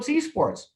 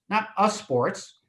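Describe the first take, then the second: First: The word begins with a clear 'ee' sound. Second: The word does not begin with an 'ee' sound. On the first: The speaker calls it right. "It's e" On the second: The speaker calls it wrong.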